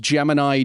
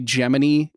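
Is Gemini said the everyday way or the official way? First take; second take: everyday; official. First: Gemini is said the everyday way. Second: Gemini is said the official way.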